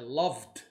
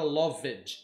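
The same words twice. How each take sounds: First: The final d is soft and almost silent. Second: The ending is said as a full extra syllable. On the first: The speaker calls it right. "É loved. É um D mudo" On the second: The speaker calls it wrong. "Nunca você fala loved"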